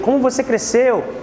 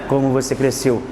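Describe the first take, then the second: First: It is said with lively, surprised, admiring intonation. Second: It is said flatly, without emotional intonation. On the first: The speaker is amazed at how much someone grew. The speaker calls it right. "uma certa admiração, uma certa surpresa" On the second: No feeling is conveyed. The speaker calls it wrong. "não é assim"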